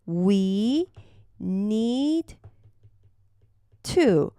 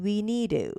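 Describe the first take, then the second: First: The d and t are both clearly pronounced. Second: The d is weakened to a flap-like sound.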